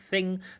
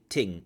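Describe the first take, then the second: First: The word begins with a th sound. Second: The word begins with a t sound. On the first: "instead of thing" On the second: "They have more of a t"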